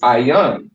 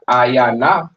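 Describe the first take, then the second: First: The word ends on the n consonant. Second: The word ends with an extra vowel after n. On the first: The speaker calls it right. "It's ayan" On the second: The speaker calls it wrong. "it's not ayana"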